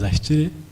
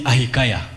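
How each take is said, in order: First: The name is said with a local accent. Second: The name is said like a phone's voice. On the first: "the local version is" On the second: "those of you who have iPhones, it calls me"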